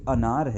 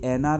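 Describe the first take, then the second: First: The word begins with a short 'a' sound. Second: The word begins with an 'e' vowel sound. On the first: The speaker calls it right. "ये अनार है" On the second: The speaker calls it wrong. "ये एनार नहीं है"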